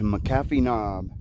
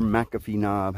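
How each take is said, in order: First: McAfee as muh-KAF-ee, stressed on the middle; "McAfee" pronounced muh-KAF-ee; stress on second syllable. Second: McAfee as MACK-uh-fee, stressed up front; "McAfee" pronounced MACK-uh-fee; stress on first syllable. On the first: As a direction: say "McAfee" with the beat on CAF. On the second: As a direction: say "McAfee" with the beat on MAC. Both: Shown as a demonstration. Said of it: "however you pronounce it".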